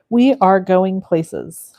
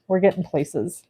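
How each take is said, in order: First: "We are going places" said slowly, each word weighted; slow emphatic correction. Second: Said in the usual way. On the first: Real, not acted.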